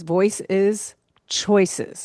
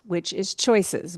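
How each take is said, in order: First: "Voice is choices" drawn out very slowly, each word weighted; slow emphatic. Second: Said in the usual way. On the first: Shown as a demonstration. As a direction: spell out "Voice is choices" slowly with stress on "is".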